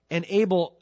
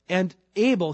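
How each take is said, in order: First: "And Abel" read louder with the fall on Abel; a firm scripture opening on "Abel"; restarted reading. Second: "And Abel" read louder, falling hard on Abel; a bold restart on "Abel". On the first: The preacher restarts the verse and leans on "Abel". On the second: The preacher rereads the verse with more weight on "Abel". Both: Shown as a demonstration. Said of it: "it says, uh".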